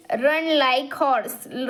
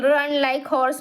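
First: Put-on very slow, word by word, for young learners; slow reading. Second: Said in the usual way. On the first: Shown as a demonstration. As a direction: read "Run like horse." out slowly and clearly. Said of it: "Run like horse म्हणजे काय?". (हळू, स्पष्ट वाचन) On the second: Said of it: "म्हणजे काय?".

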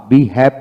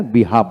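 First: বিহ্যাভ with front "ae", "bi-haep"; rejected pronunciation. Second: বিহাফ with open "aa", "bi-haaf"; preferred pronunciation. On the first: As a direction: say বিহ্যাভ with the vowel of "hat". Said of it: "বিহ্যাভ বলি না". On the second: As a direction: say বিহাফ with a long "ah". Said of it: "বিহাফ বলি". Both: Shown as a demonstration.

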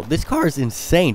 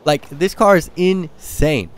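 First: Said in the usual way. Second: "this car is insane" drawn out slowly, hitting "car" with a falling tune; slow down and lean on "car" in "this car is insane"; slow emphatic. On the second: Shown as a demonstration. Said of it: "that's how excited I am".

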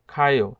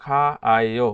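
First: খায়ও with the two vowels run into one; merged vowels. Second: খা আয়ও with খা held apart from আয়ও; separated syllables. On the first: Teacher showing learners the written-as-one form, খায়ও with merged vowels. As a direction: say খায়ও joined, as one short word. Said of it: "একটা স্বরবর্ণ লিখে". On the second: Teacher showing learners the expected form, খা আয়ও in separated syllables. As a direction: say খা আয়ও as separate vowels, unmerged. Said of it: "উচ্চারণ হওয়ার কথা ছিল". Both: Shown as a demonstration.

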